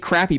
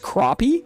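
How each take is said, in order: First: It is said like the adjective crappy. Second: It is said unlike the adjective crappy. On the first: The speaker calls it wrong. "you would want to say crappy" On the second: The speaker calls it right. "but apparently it's crappie"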